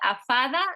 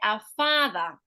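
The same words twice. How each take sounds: First: The vowel in father is said short. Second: The vowel in father is said long. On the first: The speaker calls it wrong. "you're often making this too short" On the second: The speaker calls it right. "we would say"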